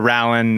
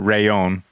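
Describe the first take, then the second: First: The middle consonant sounds like an L. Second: The middle consonant sounds like a Y. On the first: The speaker calls it wrong. "not the Rallon" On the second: The speaker calls it right. "It is the Rayon"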